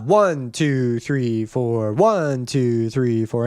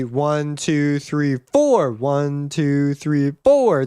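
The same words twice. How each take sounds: First: Strong downbeat on "one", lower on the rest; stress on ONE. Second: Accent moved onto the last count, "four"; stress on FOUR. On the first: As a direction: count the beat with "one" hit hardest. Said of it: "that one is really loud". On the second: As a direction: hit "four", keep "one, two, three" lighter. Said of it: "we can move the accent around". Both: Shown as a demonstration.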